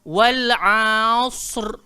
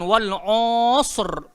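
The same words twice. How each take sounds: First: The vowel after ain sounds like a. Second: The vowel after ain sounds like o. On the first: The speaker calls it right. "Dia kena bunyi a" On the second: The speaker calls it wrong. "jangan jadikan dia o"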